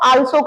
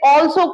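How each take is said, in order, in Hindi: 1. पहला स्वर खुली 'ah' ध्वनि है। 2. पहला स्वर गोल होठों वाली 'aw' ध्वनि है।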